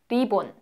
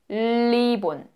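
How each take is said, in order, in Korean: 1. 첫 자음은 한국식으로 발음해요. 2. 첫 자음은 중국식으로 발음해요. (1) "한국식은" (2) "중국식은"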